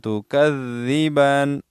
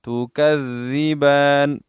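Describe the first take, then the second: No difference in how they are said.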